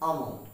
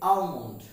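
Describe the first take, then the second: First: আমন্ড with no L sound; correct pronunciation. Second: আলমন্ড with the L sounded; common mispronunciation. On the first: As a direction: say "aa-mond", leaving out any L in আমন্ড. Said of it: "কিন্তু উচ্চারণটি হবে". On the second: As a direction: pronounce the L in আলমন্ড. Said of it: "আমরা এটাকে প্রায় উচ্চারণ করে থাকি". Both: Shown as a demonstration.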